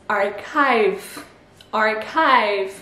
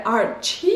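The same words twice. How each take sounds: First: Archive with ch as K and a diphthong I, ar-kive; English archive. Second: The wrong archive, ch as sh; tempting wrong reading. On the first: Teacher modelling archive in English. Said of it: "le C H devient un K". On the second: Teacher voicing the tempting wrong reading. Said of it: "Eh ben non". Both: Shown as a demonstration.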